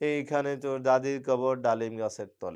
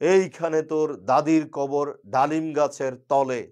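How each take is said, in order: First: It is recited in a whining, begging tone. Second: It is recited in a loud, speech-making tone. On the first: The reciter does not understand meter and rhythm. "সে এইভাবে উচ্চারণ করা শুরু করলো" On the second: The reciter may know nothing about meter. "রাজনীতিবিদ শুরু করলো এই কবিতা"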